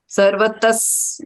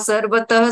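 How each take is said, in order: First: The word ends in a clear s sound. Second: The word ends in a breathy h sound. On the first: The speaker calls it right. "सर्वतस नहीं हुआ" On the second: The speaker calls it wrong. "सर्वतः स्वर अ, सुनाया था"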